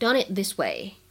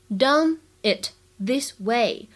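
First: The words run together; the t of it is unreleased. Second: The words are said separately, each fully pronounced.

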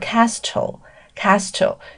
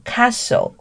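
First: The t sound is pronounced in the middle. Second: The t sound is silent in the middle. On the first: The speaker calls it wrong. "很多人会念成castle" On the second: The speaker calls it right. "是念castle。这边的这个t 它是不发音的"

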